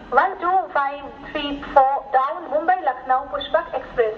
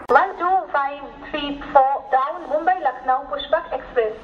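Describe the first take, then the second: No difference in how they are said.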